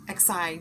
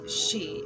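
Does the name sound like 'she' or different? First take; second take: different; like she. First: The name does not sound like 'she'. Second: The name sounds like the word 'she'. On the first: The speaker calls it wrong. "what I used to pronounce as being" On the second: The speaker calls it right. "the proper way is Xi, as in he, she"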